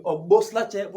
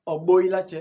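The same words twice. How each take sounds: First: "Obo slache" with the S clearly said before l; full careful "Obo slache", sounding the S; S pronounced. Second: "Obo ilache" with the S swallowed into i; relaxed everyday "Obo ilache", no S; S dropped. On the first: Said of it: "Au lieu de". (prononcez bien le S dans « Obo slache ») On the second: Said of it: "vous entendrez plus souvent". (« Obo ilache » sans prononcer le S, forme courante) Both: Shown as a demonstration.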